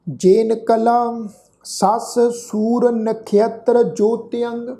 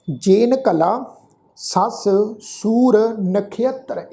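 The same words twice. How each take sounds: First: Very slow reading of ਜੇਨ ਕਲਾ ਸੱਸ ਸੂਰ ਨਖੇਤਰ in one flow; slow recitation. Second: ਜੇਨ ਕਲਾ set apart, then a slow ਸੱਸ ਸੂਰ ਨਖੇਤਰ with weight on ਸੂਰ; phrased recitation. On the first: Teacher reciting the line before the correction, slow recitation. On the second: Teacher showing the sangat the careful reading, split and slow. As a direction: break after ਕਲਾ, lean on ਸੂਰ. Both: Shown as a demonstration. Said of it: "ਇੱਥੇ ਵੀ ਖਿਆਲ ਰੱਖੋ".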